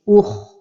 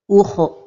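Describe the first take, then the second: First: The r is a clean, heavy tap. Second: The r ends with a bouncing echo. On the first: The speaker calls it right. "elle est emphatique, comme ceci" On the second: The speaker calls it wrong. "de donner al-qalqalah, comme ceci"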